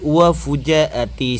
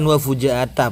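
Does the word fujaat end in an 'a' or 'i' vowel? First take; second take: i; a. First: The word ends with an i vowel. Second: The word ends with an a vowel. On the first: The speaker calls it right. "tapi wa fujaati" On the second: The speaker calls it wrong. "Ini juga bukan wa fujaata"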